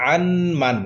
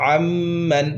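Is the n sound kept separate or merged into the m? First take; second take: separate; merged. First: The n is pronounced separately before the m. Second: The n merges into a doubled m sound. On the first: The speaker calls it wrong. "এরকম হবে না" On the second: The speaker calls it right. "নুনের উচ্চারণটি মিমের সাথে মিলে যাবে"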